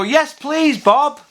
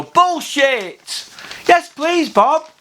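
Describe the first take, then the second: First: Chirpy mock contestant, much higher; eager contestant. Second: Chirpy mock contestant, much higher, cheeky punchline. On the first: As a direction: beam it at the host. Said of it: "they'd go". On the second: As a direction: blurt it like a game-show answer. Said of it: "you'd go".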